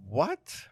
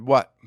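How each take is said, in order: First: A quiet, rising "What?" as if clueless; puzzled query. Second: A sharp, loud, falling "What?"; blunt loud what. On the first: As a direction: ask "What?" softly, rising, feigning not to understand. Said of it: "with a query on my face". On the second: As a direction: snap "What?" back loudly, falling at the end. Turning to a taunting firefighter. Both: Retold or imitated.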